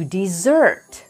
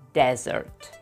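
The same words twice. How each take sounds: First: The stress is on the second syllable. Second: The stress is on the first syllable. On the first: It is a verb: to abandon someone or something. "you pronounce it to desert, just like the word with two S's" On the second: It is a noun: a dry place with sand or rocks. "The stress goes on the first syllable"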